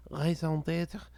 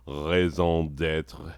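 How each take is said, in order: First: "Raison d'être" in crisp native French, lighter and higher; perfect French. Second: Put-on "raison d'être" said very slowly in a clumsy American accent; mangled French. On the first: Retold or imitated. Belgian colleague correcting him, in smooth native French. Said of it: "said it perfectly". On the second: Telling a Belgian colleague the phrase, slow and badly pronounced. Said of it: "it sounded like shit".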